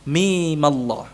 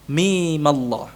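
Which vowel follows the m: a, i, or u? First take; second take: a; a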